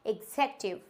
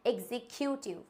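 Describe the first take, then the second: First: एग्जेक्यूटिव as "ig-zek-yu-tiv"; correct pronunciation. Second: एग्जीक्यूटिव as "ek-zee-kyu-tiv", softer; wrong pronunciation. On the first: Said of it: "क्या होता है". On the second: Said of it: "not a executive". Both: Shown as a demonstration.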